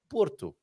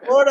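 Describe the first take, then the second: First: It is said with a Portuguese accent. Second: It is said with an American accent.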